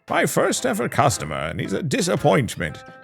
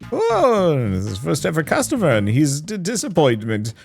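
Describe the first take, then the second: First: It is said in a put-on wizard voice. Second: It is said without a wizard voice.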